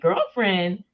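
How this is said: It is said in a light, joking tone. The remark is a friendly tease. The speaker calls it right. "like made it funny"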